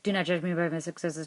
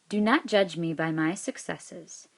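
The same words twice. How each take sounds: First: It is read very fast. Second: It is read at a moderate pace.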